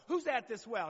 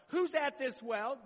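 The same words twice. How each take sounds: First: Who's stressed with a falling tune on well; falling question. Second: Who's drawn out slowly with a rising tune on well; slow rising question. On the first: Pastor repeating the question to the congregation with a firm fall. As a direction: ask Who's at this well firmly and let it drop. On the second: Pastor quizzing the congregation with a slow rising question. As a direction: ask Who's at this well slowly and lift the end. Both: Shown as a demonstration. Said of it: "Anybody know?".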